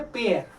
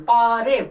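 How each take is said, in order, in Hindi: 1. यह एक अक्षर में बोला जाता है, pair। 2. यह दो अक्षरों में बोला जाता है, paa-ray। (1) "राइट इज पेयर" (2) "पारे नहीं पढ़ेंगे ... दिस वन इज रॉन्ग"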